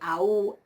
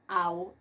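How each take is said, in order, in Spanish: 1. El acento cae sobre la segunda vocal. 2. El acento cae sobre la primera vocal. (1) "no se pronuncian ahí" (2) "el ictus cae sobre la, el primer elemento"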